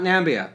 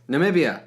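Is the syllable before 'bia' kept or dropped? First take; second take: dropped; kept. First: The word is said with one syllable dropped. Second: The word is said with all four syllables. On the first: The speaker calls it wrong. "as Trump says" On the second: The speaker calls it right. "Namibia, not Nambia"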